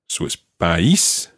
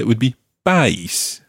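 First: The stress falls on the I sound. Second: The stress falls on the A sound. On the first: "we've got the accent on the I" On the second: "If it were on the A"

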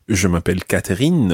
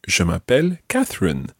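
First: Catherine is said with a French accent. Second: Catherine is said with an English accent.

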